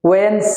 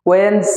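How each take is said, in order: Both takes have the same delivery.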